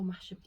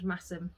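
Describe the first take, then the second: First: The middle consonant is an sh sound. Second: The middle consonant is a plain s sound. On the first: "It's spelt Masham" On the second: "the correct pronunciation of the place is actually Massam"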